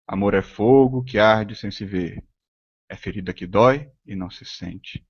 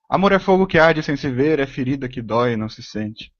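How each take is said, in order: First: Slow, measured reading of the verse, pausing between phrases; slow recitation. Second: Brisker verse reading, starting high and falling away; quicker, higher-toned recitation. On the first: Teacher showing how many tones fit a Camões line, slow recitation. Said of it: "em quantos tons você pode falar isso". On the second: Teacher showing the verse in another speed and intonation, quicker recitation. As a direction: recite it in one run, high at first, softening at the end. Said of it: "em várias velocidades, com várias entonações". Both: Shown as a demonstration.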